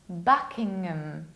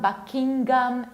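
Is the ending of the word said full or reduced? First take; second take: reduced; full. First: The ending 'ham' is reduced and weak. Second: The ending 'ham' is said fully. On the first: The speaker calls it right. "You need to reduce ngam" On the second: The speaker calls it wrong. "It's not Buckingham"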